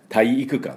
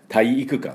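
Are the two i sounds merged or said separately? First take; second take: separate; separate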